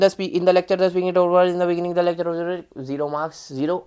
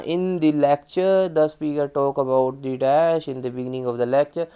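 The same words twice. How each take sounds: First: Rushed, jumbled reading; rushing through the lecture summary; too fast. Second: Slow, dragging and lower; painfully slow demo of bad speaking; too slow. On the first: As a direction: gabble the answer too quickly. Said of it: "ये नहीं कि हम बहुत तेज बोल रहे हैं". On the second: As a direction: drag every word out slowly. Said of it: "बहुत slow नहीं बोलना". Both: Shown as a demonstration.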